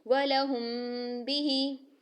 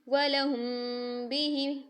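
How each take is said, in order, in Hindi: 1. मीम छिपी हुई है, नासिका की रोकी हुई गूंज के साथ। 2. मीम छिपी हुई है, नासिका की रोकी हुई गूंज के साथ।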